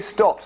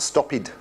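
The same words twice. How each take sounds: First: The ending is a short t sound, one syllable. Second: The ending is an extra syllable, two syllables. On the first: The speaker calls it right. "can we say stopped" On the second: The speaker calls it wrong. "not stopped"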